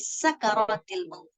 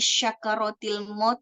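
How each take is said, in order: First: The word before maut begins with s. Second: The word before maut begins with sh. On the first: The speaker calls it right. "Jadi yang betul sakaratul maut" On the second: The speaker calls it wrong. "enggak. Nggak pakai shin"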